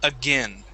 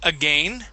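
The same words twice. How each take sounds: First: The second syllable has a short 'i' vowel. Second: The second syllable rhymes with 'rain'. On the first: "we change that A I N sound to a short I" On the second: "you would pronounce it again"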